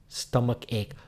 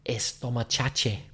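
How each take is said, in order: First: It starts directly with the s sound. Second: It starts with an added e vowel sound. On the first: The speaker calls it right. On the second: The speaker calls it wrong.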